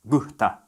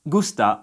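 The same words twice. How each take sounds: First: The s is breathed out like an h. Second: The s is a clear hissing s sound.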